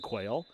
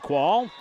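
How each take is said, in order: First: The name sounds like the word 'quail'. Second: The name does not sound like 'quail'. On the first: The speaker calls it wrong. "I have been pronouncing it incorrectly when I was saying" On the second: The speaker calls it right. "So it is uh, Ellie, Ellery Qual"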